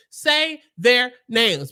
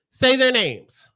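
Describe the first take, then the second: First: "Say their names" drawn out, "say" punched; slow demand. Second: "Say" hit hard, "their names" follows; firm demand. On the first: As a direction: demand it slowly, word by word. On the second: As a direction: demand it firmly. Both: Shown as a demonstration.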